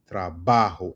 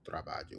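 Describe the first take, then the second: First: The middle syllable is stressed. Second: The middle syllable is not stressed. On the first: The speaker calls it right. "Emphasis on the ba" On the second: The speaker calls it wrong. "not trabajo"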